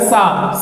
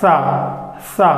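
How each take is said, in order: First: The teeth are pressed together, giving a plain 's'. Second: The tongue pokes between the teeth, like 'th'. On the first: "हम वो दांत दबाकर बोलेंगे, बिल्कुल दांत दबाकर" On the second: "अपने जुबान को बाहर लाना है, दोनों दांत के दरमियान के थोड़ा सा बाहर"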